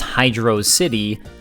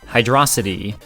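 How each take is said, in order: First: It is said as two separate words. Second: It is said as one word rhyming with velocity. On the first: The name is two words, a water city. "wouldn't there be a space in the middle?" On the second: The name is a play on speed. "It could spell out similar to Velocity"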